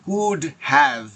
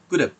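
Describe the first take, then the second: First: Have is said in full with its h sound. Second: Have is reduced and joined without the h. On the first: The speaker calls it wrong. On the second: The speaker calls it right.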